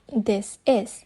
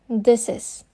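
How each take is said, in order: First: The two words are said separately. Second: The s runs straight into the next word. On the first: "instead of" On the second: "the last sound of the first word, which is s, is combined with the first sound of the first next word"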